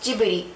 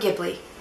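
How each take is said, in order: First: The name is said with its Japanese pronunciation. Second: The name is said with a Western pronunciation. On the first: "In Japan, the name is more commonly pronounced" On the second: "in the West, it's more commonly pronounced"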